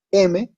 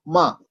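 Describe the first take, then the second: First: "M" said "eme", two syllables; name "M" the Spanish way, as e-me; Spanish letter name. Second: "ma" as one syllable ending in a; name the consonant "ma", no leading e; Hindi letter name. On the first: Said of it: "No decimos M". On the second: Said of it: "sino ma". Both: Shown as a demonstration.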